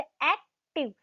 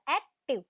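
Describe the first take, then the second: First: Said in the usual way. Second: active said as two parts with a slight pause between; split in two parts. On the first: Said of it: "means मैंने टू parts में इसको बोला". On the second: Shown as a demonstration. Teacher shows students how to split the word, pausing. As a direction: break active into two beats, pausing lightly. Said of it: "मैंने टू parts में इसको बोला".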